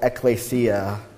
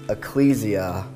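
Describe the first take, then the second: First: The word is said in a Greek-style pronunciation. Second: The word is said in an English-style pronunciation.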